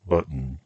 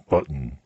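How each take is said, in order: First: The t is released through the nose. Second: The same.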